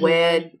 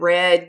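First: The word starts with a W sound instead. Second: The word starts with a clear R sound. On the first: The speaker calls it wrong. "you'd say mm-hmm. wed" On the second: The speaker calls it right. "instead of red"

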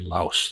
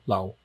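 First: The word ends with an s sound. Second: The word ends on a vowel, no s. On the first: This is the usual outside pronunciation. The speaker calls it wrong. "they don't say Laos" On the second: This is how locals in Thailand say it. The speaker calls it right. "They say Lao, L-A-O"

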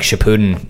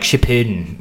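First: The word is said with a plain English accent. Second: The word is said with a Japanese-style accent. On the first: "Saying it without an accent" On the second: "I feel like I gotta say like Shippuden"

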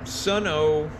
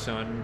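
First: The name ends with an added 'oh' syllable. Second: The name is one syllable with no 'oh'. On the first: The speaker calls it wrong. "I know that's not the right way to say it" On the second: The speaker calls it right. "I know it's just Sun"

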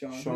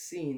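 First: The name starts with an sh sound, like 'shawn'. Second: The name starts with an s sound, like 'seen'. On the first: This is the usual pronunciation of the name. "or you could spell it S-H-A-W-N. That's Sean" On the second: The name is read exactly as it is spelled. "It's literally how it's spelled"

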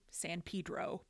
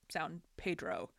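First: The name is said the way locals say it. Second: The name is said the way outsiders say it. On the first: The speaker is from the town. The speaker calls it wrong. "pronounced incorrectly, San Pedro, by locals" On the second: The speaker is not from the town. The speaker calls it right. "and correctly by everyone else, San Pedro"

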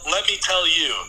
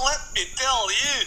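First: It is said in the speaker's own accent. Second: It is said in a put-on Welsh accent.

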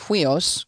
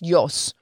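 First: The word begins with an h sound. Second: The word begins with a y sound. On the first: The speaker calls it wrong. "you might hear some people pronouncing it huios, because that's what it looks like" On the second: The speaker calls it right. "but it's pronounced yos"

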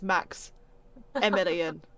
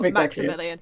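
First: There is a pause after Max. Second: The name is said without a pause. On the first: The speaker calls it right. "That's a pause between the Max and the Emilian" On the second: The speaker calls it wrong. "he is not Maximilian"

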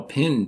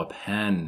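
First: The vowel sounds like the one in 'pin'. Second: The vowel sounds like the one in 'pen'. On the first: This is how a roommate in Oklahoma said it. "a pin to write with" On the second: This is how the speaker says it. "oh, a pen"

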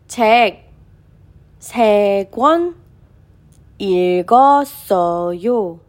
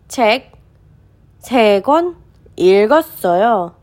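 First: The sentence is read at a slower pace. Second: The sentence is read at a faster pace.

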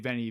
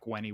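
First: The Latin is read Italian-style, with a V sound. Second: The Latin is read classical-style, with a W sound.

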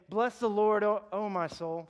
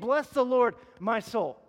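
First: It is said as a wistful, sighing exclamation. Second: It is said as a firm, commanding order.

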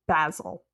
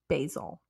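First: Basil is said the European way. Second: Basil is said the American way.

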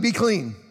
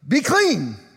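First: It is said calmly, as plain reading. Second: It is said forcefully, as an exclamation.

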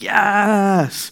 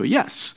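First: It is said as an excited celebration. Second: It is said as a plain reply.

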